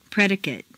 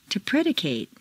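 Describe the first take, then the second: First: "Predicate" ending in weak "-kut"; reduced ending. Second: "predicate" ending in long "-KATE"; full A ending. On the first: Teacher models "Predicate" with reduced final vowel. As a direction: shrink the last vowel of "Predicate". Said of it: "completely reduced". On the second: Teacher models verb "predicate" with full final A. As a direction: open out the last A of "predicate". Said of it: "it's a full A sound". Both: Shown as a demonstration.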